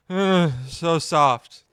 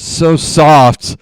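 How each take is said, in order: First: Slow sleepy mumble. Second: Sleepy mumble. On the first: Retelling girlfriend's sleep talk, slow drowsy murmur. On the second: Girlfriend talking in her sleep, a drowsy mumble. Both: Retold or imitated. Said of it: "mumbles something and then says".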